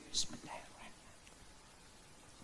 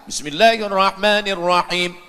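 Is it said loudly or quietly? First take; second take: quietly; loudly. First: It is said quietly, almost inaudible. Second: It is said aloud, clearly audible.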